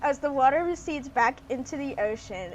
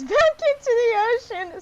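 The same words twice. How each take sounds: First: Said in the usual way. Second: Giggling through the words, higher and louder; can't hold back the laughter while reading; laughing. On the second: Real, not acted. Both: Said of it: "I can't stop laughing".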